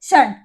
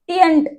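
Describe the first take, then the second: First: The syllable starts with a 'sh' sound. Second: The syllable starts with a 't' sound. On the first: The speaker calls it right. "इसे क्या बोलेंगे, शंट" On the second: The speaker calls it wrong. "टियंट नहीं बोलेंगे"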